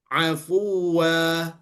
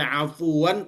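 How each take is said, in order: First: The word ends with a vowel, no n. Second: The word ends with a short vowel and n. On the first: The speaker calls it right. "tapi afwa. Kenapa? Karena dia berhenti" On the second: The speaker calls it wrong. "tidak dibaca afuan"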